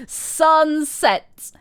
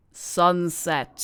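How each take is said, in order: First: Sunset mocked, higher and louder with a falling end; mock emphatic. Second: Said in the usual way. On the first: Shown as a demonstration. Mocking the cousin's curfew, higher and louder. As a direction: throw Sunset back at her in mockery.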